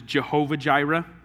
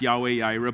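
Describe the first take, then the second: First: Both words begin with a J sound. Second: Both words begin with a Y sound. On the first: The speaker calls it wrong. "you probably heard this pronounced as Jehovah Jireh" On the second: The speaker calls it right. "A better pronunciation of that is Yahweh Yireh"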